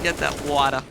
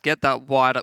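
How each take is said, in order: First: It is said in a New York accent. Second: It is said in the speaker's ordinary accent. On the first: "with a New York accent" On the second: "I was going to say it with a New York accent"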